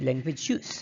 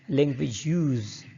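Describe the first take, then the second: First: Use is pronounced the way the noun is. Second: Use is pronounced the way the verb is. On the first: The speaker calls it right. "We must say language use" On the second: The speaker calls it wrong. "language use is wrong in English"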